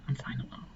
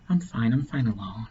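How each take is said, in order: First: "I'm fine alone" repeated as a near-silent whisper; whispered echo. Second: Said in the usual way. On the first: Retold or imitated. Retelling lonely woman's insistence.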